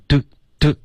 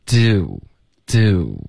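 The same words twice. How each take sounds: First: "do" cut short on one unmoving vowel; wrong vowel without glide. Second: Very slow "do" with a sliding oo; gliding vowel. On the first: Teacher imitating the error to avoid, glideless do. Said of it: "别发成". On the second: Teacher modelling the right sound, slow gliding do. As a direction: stretch "do" so the vowel glides to rounded lips. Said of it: "应该是有滑动的". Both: Shown as a demonstration.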